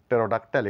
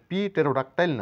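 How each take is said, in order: First: No 'p' sound is pronounced at the start. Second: A 'p' sound is pronounced at the start. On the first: The speaker calls it right. "এখানে পি এর কোনো sign নেই" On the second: The speaker calls it wrong. "পি টেরোডাক্টাইল না বলে"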